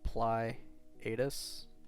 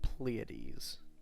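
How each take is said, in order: First: The name gets an anglicized, English-style pronunciation. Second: The name gets a Greek-style pronunciation. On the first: The speaker calls it wrong. "if you read that in English, I mean, it's like Pleiades" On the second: The speaker calls it right. "but it's actually Pleiades"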